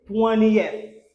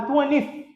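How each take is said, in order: First: "twentieth" as "TWEN-ee-eth", falling; correct three-syllable twentieth. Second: "twentieth" clipped to two syllables, "TWEN-ith"; mispronounced twentieth. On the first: Teacher corrects the learners' error, "twentieth" as "TWEN-ee-eth". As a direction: sound every syllable of "twentieth", "ee-eth" last. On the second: Teacher warns learners off it, "twentieth" mispronounced as "TWEN-ith". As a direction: say "twentieth" wrongly, ending straight in "-ith". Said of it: "C'est pas twentieth". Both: Shown as a demonstration.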